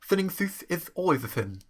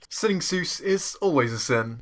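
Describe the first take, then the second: First: The s sounds come out as th sounds. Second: The s sounds are clear hissing sounds.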